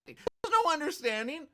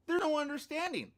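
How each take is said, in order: First: High, loud There's no understanding; incredulous retort; indignant scoff. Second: High There's no understanding, There's stressed; scornful repeat; indignant scoff. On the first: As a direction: toss back the clinic's words in mock outrage. Mocking the clinic's statement. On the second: Repeating the retort. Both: Real, not acted.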